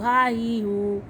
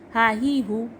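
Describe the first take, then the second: First: The vowels are drawn out long. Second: The vowels are kept short. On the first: The speaker calls it wrong. "ये बिल्कुल गलत है।" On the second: The speaker calls it right. "ये ज़बर ज़ेर और पेश को हम बिल्कुल भी नहीं खींचते।"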